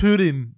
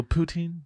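First: Putin said as PYOO-tin, plain English; Putin the Russian way. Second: Put-on Poutine said as poo-TEEN, French style, rising. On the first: Shown as a demonstration. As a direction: say Putin like the leader's name. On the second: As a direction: say Poutine like the Quebec dish. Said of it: "Or they go".

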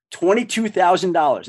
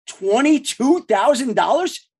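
First: Said in the usual way. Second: Slow, higher-pitched, rising question; amazed echo. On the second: Retold or imitated. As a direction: repeat the figure in drawn-out amazement. Echoes salary back in amazement.

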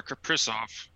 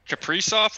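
First: Kaprizov with a short "i", ka-PRISS-off; short-i pronunciation. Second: Kaprizov with a long "ee", ka-PREE-soff; long-ee pronunciation. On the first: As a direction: clip the middle vowel of Kaprizov to "i". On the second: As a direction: stretch the middle vowel of Kaprizov to "ee". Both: Shown as a demonstration. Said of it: "Kaprizov or Kaprizov?".

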